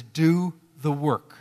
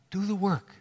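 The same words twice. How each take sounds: First: "Do the work" stretched out slowly, every word pressed; slow emphatic command. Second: Said in the usual way. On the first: Acted. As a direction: spell out each word of "Do the work". Preacher's repeated exhortation.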